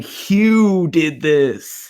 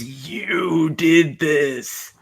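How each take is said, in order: First: Slow, drawn out, "Hugh" weighted and falling; mimicking the line with the name; the misheard version. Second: Slow and drawn out, "did" weighted and falling; quoting the reveal line slowly; dramatic movie line. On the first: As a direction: say "Hugh did this" like the same grave reveal. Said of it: "she's actually saying". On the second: Retold or imitated. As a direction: savor "You did this" like a big reveal. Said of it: "there's a line where someone goes".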